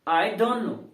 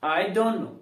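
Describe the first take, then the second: The two takes are said the same way.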